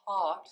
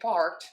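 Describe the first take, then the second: First: The word is said in a put-on British accent. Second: The word is said in a plain, everyday accent. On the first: "sounds like somebody's trying to speak British English" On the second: "Instead of saying part"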